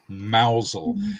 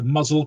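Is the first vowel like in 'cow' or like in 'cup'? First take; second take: cow; cup. First: The first vowel sounds like in 'cow'. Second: The first vowel sounds like in 'cup'. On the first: The speaker calls it right. "it is actually mousel" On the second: The speaker calls it wrong. "I've always pronounced it muzzle"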